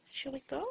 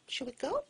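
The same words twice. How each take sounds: The two takes are said the same way.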